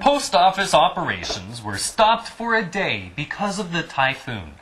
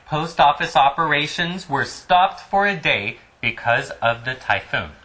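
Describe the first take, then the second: First: It is read in a put-on newscaster voice. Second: It is read in a plain, ordinary speaking voice.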